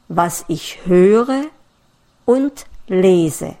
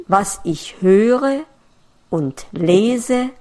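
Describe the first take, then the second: No difference in how they are said.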